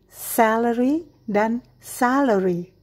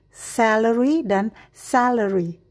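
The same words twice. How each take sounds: The two takes are said the same way.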